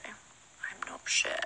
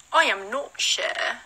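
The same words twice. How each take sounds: First: Slow, breathless whisper; whispered unsure. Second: Slow, voiced and spelled out; drawn-out unsure. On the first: Answering the snow question in a slow whisper. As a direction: murmur it slowly, unsure. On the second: Answering the snow question, slowly repeating she doesn't know. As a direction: stretch each word, playfully unsure. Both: Real, not acted.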